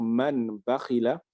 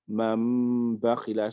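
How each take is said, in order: First: A plain n sound comes before the b. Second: A long nasal m with closed lips precedes the b. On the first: The speaker calls it wrong. "Au lieu de dire" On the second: The speaker calls it right. "Je colle les lèvres, je prononce le mime avec un nasiment hein, de deux temps"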